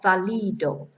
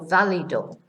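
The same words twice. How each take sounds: First: The stress is not on the first syllable. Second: The stress is on the first syllable. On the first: The speaker calls it wrong. "Not válido" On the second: The speaker calls it right. "which gives us the stress on the beginning of the word"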